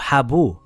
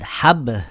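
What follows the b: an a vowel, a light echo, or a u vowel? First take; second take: u vowel; light echo. First: The b is followed by a full u vowel. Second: The b ends with only a slight echo. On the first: The speaker calls it wrong. "with a dhamma" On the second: The speaker calls it right. "with a slight echo"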